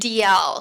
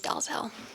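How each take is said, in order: First: The name sounds like the letters D and L. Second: The name is pronounced as it is spelled. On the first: This is how it is said in Scotland. "so like the letter D, the letter L" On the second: This is how it is said in America. "the American pronunciation is Dalzell"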